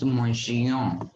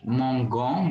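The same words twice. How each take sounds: First: "mongion" with a soft French j sound; soft g pronunciation. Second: "mongon" with a hard g; hard g pronunciation. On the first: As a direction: say "mongion" with g softened to zh. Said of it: "add E to give the sound of j". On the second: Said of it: "which will become mongon". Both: Shown as a demonstration.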